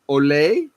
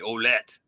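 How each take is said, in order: First: The ending is said in a French style. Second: The ending is said in an American style. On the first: "the French way" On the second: "the American way"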